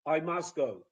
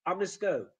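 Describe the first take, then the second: First: "must" said with its full vowel; "I must go" with "must" fully pronounced; strong form. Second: "must" reduced to an unstressed "məs"; "I must go" with "must" squeezed short; weak form. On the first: Lecturer showing what to avoid, full strong "must". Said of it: "instead of". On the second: Lecturer showing weak forms, "must" reduced. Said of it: "So those weak forms". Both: Shown as a demonstration.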